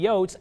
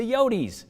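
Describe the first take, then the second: First: "yotes" said as YOATS, one syllable; one-syllable nickname. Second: "yotes" said YO-teez, two syllables; affectionate nickname. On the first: Reporter giving the mascot's nickname, "yotes" pronounced YOATS. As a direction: clip "yotes" to rhyme with oats. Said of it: "sometimes the yotes". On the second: Reporter giving the affectionate nickname, "yotes" pronounced YO-teez. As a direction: end "yotes" with a teez sound, pitched up. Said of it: "sometimes affectionately as". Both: Shown as a demonstration.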